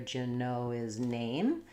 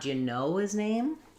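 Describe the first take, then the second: First: The word name carries the main stress. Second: The word know carries the main stress. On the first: The speaker calls it right. "but rather" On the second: The speaker calls it wrong.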